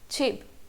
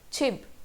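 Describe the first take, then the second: First: The word starts with an aspirated ch sound. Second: The word starts with an aspirated ch sound.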